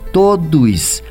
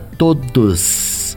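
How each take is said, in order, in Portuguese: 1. Aparece um som de i extra no meio. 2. O s final é um chiado forte. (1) "Com esse i charmosinho ali no meio" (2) "Com esse sibilante no finzinho"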